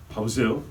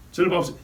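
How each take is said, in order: First: Said in the usual way. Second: 저를 hit hard with a falling tune; stress on 저를. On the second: Shown as a demonstration. Pastor pulls attention to himself, stressing 저를. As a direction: lean on 저를, then let 봐보세요 drop. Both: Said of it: "얘 보지 말고 저를 보세요".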